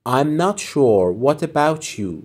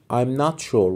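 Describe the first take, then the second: First: Very slow, careful teacher read; slow model phrase. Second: Said in the usual way. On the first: Shown as a demonstration. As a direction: stretch it out for learners. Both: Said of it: "teacher models phrase".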